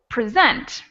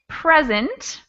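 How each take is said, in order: First: The stress is on the second syllable. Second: The stress is on the first syllable. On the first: "second syllable" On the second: "first syllable"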